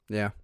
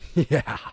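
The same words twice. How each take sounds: First: It is said flatly, with no emotion. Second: It is said with strong, eager emotion. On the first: He is not really interested in her. The speaker calls it right. "But no emotion behind it" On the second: He is strongly attracted to her. The speaker calls it wrong. "You don't go, yeah, like that"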